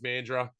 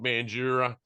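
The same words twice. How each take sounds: First: It is said the Western Australian way. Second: It is said the East Coast Australian way.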